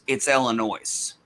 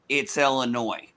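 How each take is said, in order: First: The final S is sounded. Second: The final S is silent. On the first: This is how southern residents say it. "The S is not silent uh, to us" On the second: This is how northern residents say it. "If you're a Northern Illinoisan"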